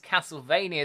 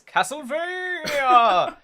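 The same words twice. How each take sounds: First: It is said in an ordinary speaking voice. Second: It is said in a big, dramatic put-on voice. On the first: The speaker calls it wrong. "I didn't say it properly" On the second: The speaker calls it right. "You have to say it that way"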